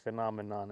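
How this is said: It is said with an American accent.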